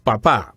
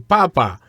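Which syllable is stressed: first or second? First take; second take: second; first. First: The stress is on the second syllable. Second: The stress is on the first syllable. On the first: It means dad. The speaker calls it right. "the correct way of saying it is papa" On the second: It means potato. The speaker calls it wrong. "if we say the accent on the first syllables"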